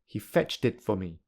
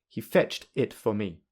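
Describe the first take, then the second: First: The words are linked smoothly together. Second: The words are said separately without linking. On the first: "secondly with linking" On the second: "firstly without linking"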